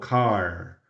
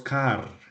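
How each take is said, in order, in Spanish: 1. La R es una R al estilo americano. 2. La R es una R al estilo español. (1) "sino car" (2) "En inglés no decimos car"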